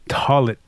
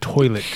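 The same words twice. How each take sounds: First: The word has a regional Oklahoma pronunciation. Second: The word has a standard general pronunciation. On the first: "they say" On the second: "instead of"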